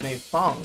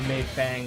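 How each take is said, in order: First: The second syllable has the vowel of 'fong'. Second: The second syllable has the vowel of 'fang'. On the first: The speaker calls it right. "but it's Mei Fong" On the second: The speaker calls it wrong. "season one I called her Mei Fang"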